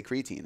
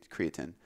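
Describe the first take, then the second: First: Put-on creatine said CREE-uh-teen; long teen ending on creatine; other scientists' pronunciation. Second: Creatine said CREE-uh-tin; short tin ending on creatine; scientists' pronunciation. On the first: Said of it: "I've heard scientists say". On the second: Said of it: "scientists say". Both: Shown as a demonstration.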